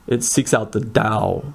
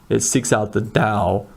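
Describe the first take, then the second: No difference in how they are said.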